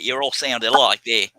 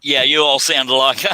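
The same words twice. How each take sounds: First: Said in the usual way. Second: Put-on a light Australian accent. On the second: Host teases British guests in a light Australian accent. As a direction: toss the line off in a hint of Australian. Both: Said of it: "I went Australian when I said that".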